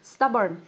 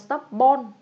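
First: The second syllable has a reduced schwa vowel. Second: The second syllable has a full, unreduced vowel. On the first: The speaker calls it right. "nhưng mà nó là âm ơ các bạn nhá" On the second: The speaker calls it wrong. "Bình thường các bạn hãy nhầm là stubborn"

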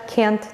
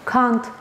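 First: It is said in an American accent. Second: It is said in a British accent. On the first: "American English-da can't deyə tələffüz edilir" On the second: "British English-da can't kimi tələffüz edilirsə"

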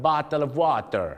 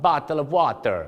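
First: It is said in a Filipino accent. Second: The same.

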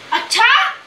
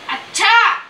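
First: It sounds shocked and questioning. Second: It is said sharply, in anger.

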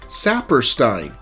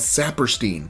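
First: The last syllable rhymes with 'Einstein'. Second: The last syllable does not rhyme with 'Einstein'. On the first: This follows the German spelling rule. "when you see the letters E and I in that order, it is pronounced I, Einstein, or Saperstein" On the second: This is how people who knew him said it. "they consistently pronounce his name as Saperstein"

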